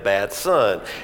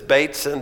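First: The first syllable sounds like 'bat'. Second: The first syllable does not sound like 'bat'. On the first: The speaker calls it right. "It's like Batman, but Batson" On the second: The speaker calls it wrong. "Usually the callers at dinner time say Bateson"

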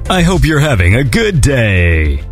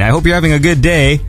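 First: It is said in an exaggerated announcer voice. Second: It is said in a plain, natural voice. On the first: It sounds insincere. "when I'm in front of the microphone, I just like to go" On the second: It is meant sincerely. "When in fact, I mean"

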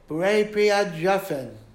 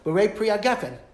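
First: The last word has a soft j sound. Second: The last word has a hard g sound.

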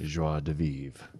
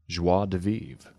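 First: It is said with a French accent. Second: It is said without the French accent. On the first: The speaker calls it right. "That's a beautiful French accent" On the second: The speaker calls it wrong. "No, with your French accent you just used"

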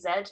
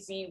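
First: The letter is pronounced zed. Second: The letter is pronounced zee. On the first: It is how people in the speaker's country say it. "we say Z" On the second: It is how people in another country say it. "we don't say Z"

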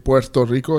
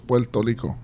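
First: The r sounds are pronounced as r. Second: The r sounds are pronounced as l. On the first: "instead of saying" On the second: "The R's are becoming an L"

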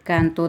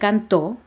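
First: The stress is on the first syllable. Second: The stress is on the last syllable. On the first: It is a noun meaning the song of birds. "esa no lleva acento" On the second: It is a past-tense verb meaning he sang. "sí lleva acento"

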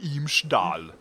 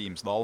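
First: The word is said in an exaggerated, dramatic voice. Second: The word is said in a plain, ordinary voice. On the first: "han måtte være Imsdal" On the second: "Han kunne ikke bare si Imsdal"

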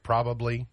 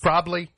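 First: A full, careful pronunciation of the word. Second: A reduced, lazy pronunciation of the word. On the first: The speaker calls it right. "instead of" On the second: The speaker calls it wrong. "A lot of them are lazy"

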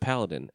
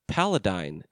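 First: The final syllable has a short 'i' vowel. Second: The final syllable has a long 'ee' vowel. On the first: The speaker calls it right. "instead of Paladin" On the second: The speaker calls it wrong. "He said, Paladine instead of Paladin"

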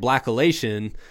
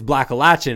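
First: It uses the speaker's own Midwestern-style vowel. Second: It uses the Southeastern-style vowel. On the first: The speaker calls it wrong. "I kept saying Blackalachian" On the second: The speaker calls it right. "But really, it's Blackalachian"

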